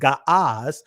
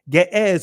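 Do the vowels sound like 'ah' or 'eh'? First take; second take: ah; eh. First: The vowels sound like 'ah'. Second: The vowels sound like 'eh'. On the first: This is the ancient pronunciation. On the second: This is the later, usual pronunciation.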